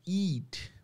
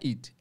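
First: The vowel is a long, stretched ee sound. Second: The vowel is a short i sound. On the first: The speaker calls it right. "é eat" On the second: The speaker calls it wrong. "não é eat"

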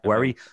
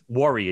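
First: The first vowel sounds like the vowel in 'bed'. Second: The first vowel sounds like the vowel in 'her'. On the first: This is one person's quirky pronunciation. The speaker calls it wrong. "Like as if it was spelled W-E-R-R-Y" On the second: This is the usual pronunciation. The speaker calls it right. "but it's worry"

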